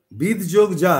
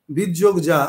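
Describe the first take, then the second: No difference in how they are said.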